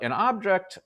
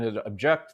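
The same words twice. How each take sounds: First: The stress is on the first syllable. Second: The stress is on the second syllable.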